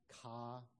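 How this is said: The final r sound is dropped. "if you're in the Northeast, you would say ka"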